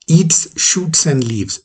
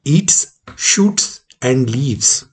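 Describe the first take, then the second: First: "shoots and leaves" run together as things eaten; no list breaks in "shoots and leaves"; reading without commas. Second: "Eats", pause, "shoots", pause, "and leaves"; three separate actions. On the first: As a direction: read "eats shoots and leaves" as one statement. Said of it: "eats shoots and leaves का मतलब हुआ". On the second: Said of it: "दूसरी में तीन क्रियाएं हैं". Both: Shown as a demonstration.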